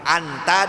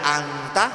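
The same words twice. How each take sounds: First: The n sound is pronounced clearly. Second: The n sound is hidden and nasalized. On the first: "baca izhar" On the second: "baca ikhfa"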